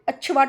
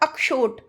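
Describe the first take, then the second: First: The middle sound is a plain 'ch' sound. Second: The middle sound is a clear 'ksh' cluster. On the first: The speaker calls it wrong. "अच्छवाट बोल के चले जाते हैं, वो भी गलत है" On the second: The speaker calls it right. "अभी मैंने बोला ना अक्षोट"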